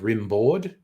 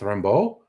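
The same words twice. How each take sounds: First: The name is read out as it is spelled. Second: The name is said with French pronunciation. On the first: "when you see it written, it looks like" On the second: "but he's French. It's"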